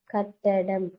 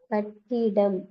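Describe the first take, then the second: First: "கட்டடம்" spoken as kaṭ-ṭa-ḍam; correct word form. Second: "கட்டிடம்" spoken as kaṭ-ṭi-ḍam; wrong word form. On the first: Teacher asks which is right, "கட்டடம்" with middle a. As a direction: separate out "கட்டடம்", middle vowel a. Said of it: "கட்டடம் தான் சரி". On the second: Teacher asks which is right, "கட்டிடம்" with middle i. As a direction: separate out "கட்டிடம்", middle vowel i. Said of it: "எது சரி?". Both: Shown as a demonstration.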